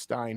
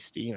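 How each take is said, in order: First: The vowel sounds like 'eye', as in mine. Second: The vowel sounds like 'ee', as in seen. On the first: The speaker calls it right. "I know it's Stein" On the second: The speaker calls it wrong. "don't say Steen"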